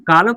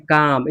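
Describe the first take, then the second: First: कालम with the l spoken before m; l wrongly sounded. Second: काम with long aa straight into m; silent l. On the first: Teacher voicing the students' likely mistake, कालम with audible l. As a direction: say कालम for "calm", sounding the silent l. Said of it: "but ऐसा नहीं होता है". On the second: Teacher giving students the right reading, काम without l. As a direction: say काम as "calm", no l. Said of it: "हम सीएएम पढ़ते हैं". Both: Shown as a demonstration.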